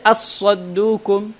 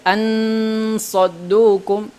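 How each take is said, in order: First: The n disappears completely into a doubled s. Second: The n is pronounced fully and clearly before s. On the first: "Jangan juga baca as-saddukum, karena ini adalah idgham" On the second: "jangan sampai ansaddukum, ansaddukum, karena ini adalah izhar"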